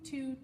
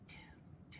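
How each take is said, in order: First: The word is spoken aloud with full voice. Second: The word is whispered without any voice. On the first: "say it with me" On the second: "Now I want you to whisper, two, two, two, like this"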